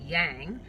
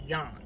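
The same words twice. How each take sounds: First: Yang is said with a broad American vowel. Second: Yang is said with a less American vowel. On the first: The speaker calls it wrong. "my Yankee yang" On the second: The speaker calls it right. "I think that's a good happy medium"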